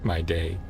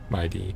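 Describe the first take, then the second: First: The name ends with a 'day' sound. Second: The name ends with a 'dee' sound. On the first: "I was saying my day" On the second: "sort of my D"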